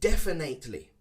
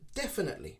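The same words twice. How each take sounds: First: The middle syllable has an 'ay' vowel. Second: The middle syllable has a short 'i' vowel. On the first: The speaker calls it wrong. "Many people pronounce it definitely" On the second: The speaker calls it right. "it's more an I sound"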